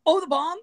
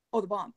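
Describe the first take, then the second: First: High, louder incredulous question; mock alarmed realization. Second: Said in the usual way. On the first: Manager suddenly grasping there was a bomb, mock alarmed realization. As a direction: repeat it as the penny drops.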